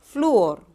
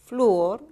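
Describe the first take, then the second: First: "Flúor" said louder, with the Ú hit hard; stressed demo word. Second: Said in the usual way. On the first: Shown as a demonstration. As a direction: punch the U in "Flúor". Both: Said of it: "suena más la U".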